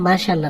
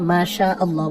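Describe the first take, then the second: First: The two words are run together as one. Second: The two words are kept clearly apart. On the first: The speaker calls it wrong. "মাশাল্লাহ না" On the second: The speaker calls it right. "মাশা আল্লাহ বলতে হবে"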